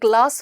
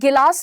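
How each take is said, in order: First: The g and l are joined, with no extra vowel. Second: An extra vowel splits the g from the l. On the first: The speaker calls it right. "ग्लास होता है" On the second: The speaker calls it wrong. "गिलास नहीं होता है"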